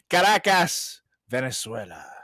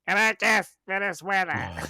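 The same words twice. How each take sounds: First: It is said in his natural voice. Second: It is said in a high-pitched, nasal voice.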